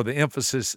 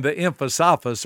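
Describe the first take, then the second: First: Said in the usual way. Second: "emphasis" said as em-fa-SAH-fus; playfully mangled "emphasis", em-fa-SAH-fus; joke mispronunciation. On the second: Shown as a demonstration. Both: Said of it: "or the emphasis".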